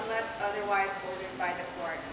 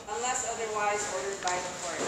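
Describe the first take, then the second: No difference in how they are said.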